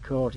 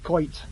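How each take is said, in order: First: The vowel is a plain standard 'oh' sound. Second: The vowel is a Yorkshire 'oi'-like sound. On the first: "we don't say coat" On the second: "it's coit"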